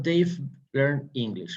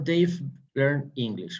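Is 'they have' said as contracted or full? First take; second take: contracted; contracted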